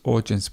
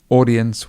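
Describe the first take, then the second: First: The middle consonant sounds like a 'j'. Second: The middle consonant is a plain 'd'. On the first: "audience with the j sound. That's probably more British English" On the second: "audience would be the standard pronunciation"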